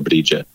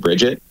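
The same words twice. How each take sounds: First: The name is pronounced the Irish way. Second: The name is pronounced the standard English way. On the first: "in Irish it's usually some version of Brigid" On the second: "most people in English say Brigid"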